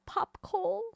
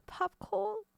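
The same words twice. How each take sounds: First: High "Pop coal?" with coal drawn out; pop coal again. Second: High mock "pop coal"; popcorn said as pop coal. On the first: Echoing chat's word, teasing high "Pop coal?". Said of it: "Are we calling it pop coal?". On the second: Reading the chat's typo aloud, high "pop coal". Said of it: "Is that what we're calling it now?". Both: Shown as a demonstration.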